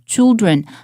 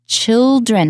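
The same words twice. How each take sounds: First: The first sound is made with tightly rounded lips. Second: The first sound is made with open, square lips. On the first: The speaker calls it wrong. "它会变成区的音" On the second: The speaker calls it right. "听起来比较开朗"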